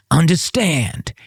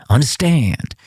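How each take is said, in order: First: "Understand?" said higher and very slowly, falling at the end, as a mock-secretive check; talking in code. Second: A short, knowing "Understand." spoken as a statement, falling at the end; cryptic code reply. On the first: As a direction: stretch out "Understand?" to make sure the coded message landed. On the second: Retold or imitated. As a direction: answer "Understand." like a man on a guarded line. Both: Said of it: "Talk to me in code".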